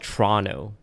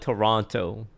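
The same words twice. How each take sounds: First: It is squeezed into two syllables, like Tronno. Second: It is said in full with three syllables. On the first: Locals say it this way. The speaker calls it right. "We call it Toronto. T R O N N O" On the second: Outsiders say it this way. The speaker calls it wrong. "We don't call it Toronto though"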